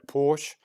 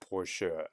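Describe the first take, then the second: First: The word ends on the sh sound. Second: The word ends with an added er vowel. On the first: The speaker calls it wrong. "Most English speakers will say Porsche" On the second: The speaker calls it right. "but the German is Porsche. So anytime an E at the end, you've got to add the R sound"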